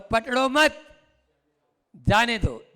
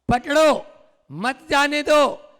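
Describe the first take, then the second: First: The pause comes right after मत. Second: The pause comes right after पकड़ो.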